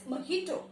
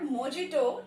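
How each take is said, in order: First: Softer "mojito" as muh-HEE-to; correct pronunciation. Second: "mojito" as mo-JEE-to; wrong pronunciation. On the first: Teacher correcting the word, pronounced with H. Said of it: "it is mojito". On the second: Teacher warning against the misreading, mispronounced with J. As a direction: sound a hard English J in "mojito". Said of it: "This is not mojito". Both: Shown as a demonstration.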